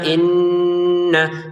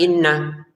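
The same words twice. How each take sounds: First: The nasal n is held for two counts. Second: The nasal n is short and not held. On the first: The speaker calls it right. "Ditahan dua harokat dengungannya" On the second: The speaker calls it wrong. "jangan sekedar inna"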